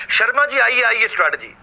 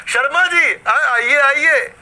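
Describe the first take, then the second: First: Said in the usual way. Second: "Sharma जी, आइए आइए" called out higher and louder, stretched slow and fond; affectionate welcome. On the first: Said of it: "strategy को नाम हमने दिया शर्मा जी आइए आइए". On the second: Shown as a demonstration. Shopkeeper fondly welcoming passing neighbour Sharma ji, drawn-out call. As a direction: beckon a neighbour in lovingly. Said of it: "आपने उन्हें प्यार से बोला".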